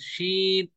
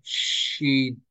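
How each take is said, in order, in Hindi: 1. 'sh' के बाद का स्वर छोटा है। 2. 'sh' के बाद का स्वर खींचकर लंबा है। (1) "बाज लोग पढ़ते हैं शीन" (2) "शी को थोड़ा खींचे"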